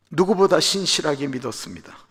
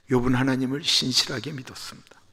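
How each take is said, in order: First: 누구보다 lifted and pressed, rest falls; stress on 누구보다. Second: Said in the usual way. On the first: Shown as a demonstration. Preacher insists on Job's faith, stressing 누구보다. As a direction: lean hard into 누구보다.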